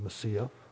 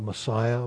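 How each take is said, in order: First: The middle vowel sounds like 'ee'. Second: The middle vowel sounds like 'eye'. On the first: "the Jews actually pronounce it Messiah. Long E sound for the I" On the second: "We call it Messiah"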